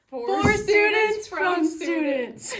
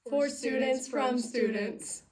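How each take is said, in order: First: It is yelled loudly. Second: It is said at normal volume.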